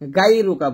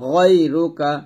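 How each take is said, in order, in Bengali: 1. প্রথম স্বরধ্বনিটি পাতলা, বাংলা 'aa'-র মতো। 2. প্রথম স্বরধ্বনিটি মোটা ও ভারী। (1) "গাই রুকা বলা যাবে না" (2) "মোটা করে পড়তে হবে"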